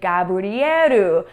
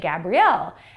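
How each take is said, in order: First: The name is said with Japanese sounds. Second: The name is said with English sounds. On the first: "in Japanese, it sounds like Gabrieru" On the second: "my full name is actually Gabrielle"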